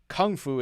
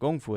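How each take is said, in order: First: The first word starts with a k sound. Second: The first word starts with a g sound. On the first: This is how it is said in America. "is said in America" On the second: This is how it is said in China. "is said in China"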